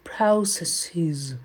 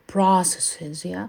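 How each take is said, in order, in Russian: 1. Первый гласный — скользящий дифтонг. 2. Первый гласный — простой открытый гласный. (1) "а британцы больше уходят в дифтонг" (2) "Американцы говорят processes, то есть они уходят такой звук"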